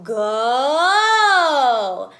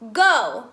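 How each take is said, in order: First: The word is dragged upward to a high pitch. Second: The word is spoken at a normal speaking pitch. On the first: "drag those words up high" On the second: "practicing speaking words like go"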